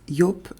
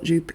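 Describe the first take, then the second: First: The name is said with a German sound. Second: The name is said with an English sound. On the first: The speaker calls it right. "it's Job Le Bain because this is a German company" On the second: The speaker calls it wrong. "I used to pronounce it Joop. It's not Joop"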